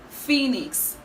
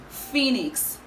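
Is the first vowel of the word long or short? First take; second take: long; long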